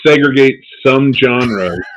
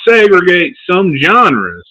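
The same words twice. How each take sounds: First: It is said in the speaker's natural accent. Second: It is said in a put-on, exaggerated accent. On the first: The speaker calls it wrong. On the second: The speaker calls it right.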